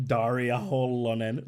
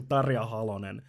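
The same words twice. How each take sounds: First: Daria Holonen drawn out, with D and o; mistaken name pronunciation. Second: Tarja Halonen with T and a; correct name pronunciation. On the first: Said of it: "No, it's, she's saying". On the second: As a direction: say "Tarja Halonen" at normal pace, Finnish name with T. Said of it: "she's saying". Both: Shown as a demonstration.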